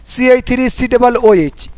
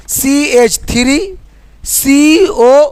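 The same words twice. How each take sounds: First: Formula read as one run, c-h-three-c-double-o-h; teacher demonstrates the wrong reading of सी एच three सी डबल ओ एच, run straight through; wrong way, run together. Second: सी एच three, then सी ओ drawn out very slowly; right way, slow and spaced. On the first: Teacher to students, showing the wrong way: sी एच three सी डबल ओ एच read without a pause. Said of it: "ये गलत तरीका है पढ़ने का". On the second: Teacher to students, showing the right way: slow, spaced सी एच three सी ओ. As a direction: read each part slowly, stretching सी ओ. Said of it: "ऐसे इसको पढ़ेंगे".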